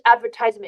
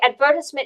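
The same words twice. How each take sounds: First: It is said the American English way. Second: It is said the British English way. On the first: "advertisement is American English" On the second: "advertisement is British English"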